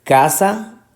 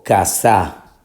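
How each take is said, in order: First: "casa" with a stressed, higher-pitched CA; stress on first syllable. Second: "casa" slowly as ca-SÁ; stress on last syllable. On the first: Teacher repeating the choice, stressing CA in "casa". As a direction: hit the CA of "casa", questioning. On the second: Teacher repeating the other option, stressing SA in "casa". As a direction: put the force on the final SA of "casa". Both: Shown as a demonstration.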